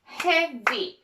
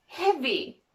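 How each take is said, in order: First: "Heavy" in two separate beats, hea, vy; split into syllables. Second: Said in the usual way. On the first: Shown as a demonstration. Teacher showing learners two syllables, "Heavy" split as hea, vy. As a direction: break "Heavy" between its syllables. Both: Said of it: "Two syllables".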